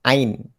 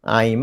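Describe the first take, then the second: First: The mouth stays open, ending on an n sound. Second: The lips close, ending on an m sound. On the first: The speaker calls it right. "buka ain. Bukan aim" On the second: The speaker calls it wrong. "Jangan tutup aim"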